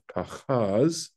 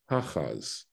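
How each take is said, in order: First: The stress is on the last syllable. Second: The stress is on the first syllable. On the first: The speaker calls it wrong. "its accent is instead of pachaz" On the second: The speaker calls it right. "pachaz means the accent's falling on the first syllable"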